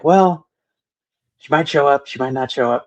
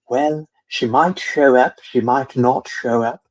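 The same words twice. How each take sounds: First: It is said in the speaker's ordinary accent. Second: It is said in an imitated British accent. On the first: The speaker calls it wrong. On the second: The speaker calls it right.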